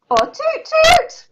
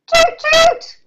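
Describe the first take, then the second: First: High and slower toot toot. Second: High toot toot; boat horn toot. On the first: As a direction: try a second, drawn-out boat horn. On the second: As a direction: play a boat's horn, pitched much higher. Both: Shown as a demonstration. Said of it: "What does a boat do?".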